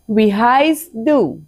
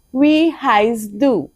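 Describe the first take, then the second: First: Slow, careful teacher model; slow German model phrase. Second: Even slower, stress on wie; slower repeat. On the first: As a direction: say each word slowly for learners. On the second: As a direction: drag it out so they can copy. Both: Shown as a demonstration.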